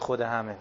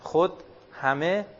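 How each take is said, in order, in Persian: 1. این دو کلمه بدون مکث پشت هم میان. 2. بعد از کلمه اول مکث هست. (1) "نه که خود همه" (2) "این خود اینجا یک توقفی داره"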